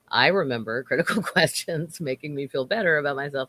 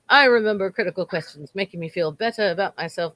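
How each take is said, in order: First: It is read in the speaker's normal accent. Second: It is read in a put-on British accent.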